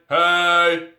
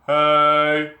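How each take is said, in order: First: The shout has a tight, compressed edge added. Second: The shout is open and clean, without compression. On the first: "the sound with compression is" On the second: "The clean sound would be like"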